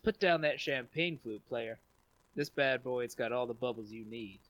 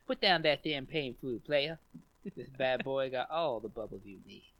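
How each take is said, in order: First: It is read in his normal voice. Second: It is read in a Leon Phelps impression.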